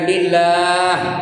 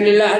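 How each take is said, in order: First: The final vowel is held long. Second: The final vowel is cut short. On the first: The speaker calls it right. "Dia mat arid tu sukun kena dua harakat atau empat harakat atau enam harakat" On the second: The speaker calls it wrong. "Jangan tu lillah aja"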